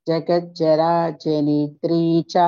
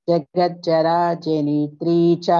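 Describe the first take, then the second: Both takes have the same delivery.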